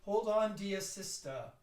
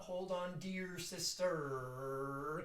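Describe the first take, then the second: First: "sister" ending in an open vowel, no R; no final R. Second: "sister" sung with an R at the end; wrong R sound. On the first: Director showing the choir how to end without an R. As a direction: finish "sister" as sista. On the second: Director showing the R the choir should drop. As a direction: let the R ring on "sister". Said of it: "so it's not". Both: Shown as a demonstration.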